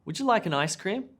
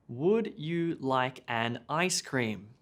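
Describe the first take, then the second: First: Quick, "Would you like an ice cream" run together; fast mushed together. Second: Slow, each word separate; "Would you like an ice cream" said word by word; slow unnatural version. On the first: Teacher showing how natives mush the sentence. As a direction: blend it like a native. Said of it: "we mush together". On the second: Teacher showing the stiff version natives avoid. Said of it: "we native speakers never say". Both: Shown as a demonstration.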